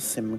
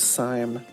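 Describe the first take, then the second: First: The vowel is short, like in sim card. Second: The vowel is long, rhyming with lime. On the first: "as a sim card" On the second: "like lime"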